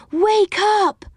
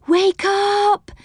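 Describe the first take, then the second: First: High squeal, hitting "Wake" and falling on "up". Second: High squeal, weight on "up", "up" held long. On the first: Silky shaking the children awake, squealing with "Wake" punched. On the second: Silky waking the children and Moonface, squealing with "up" stretched. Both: Acted. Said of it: "squealed Silky".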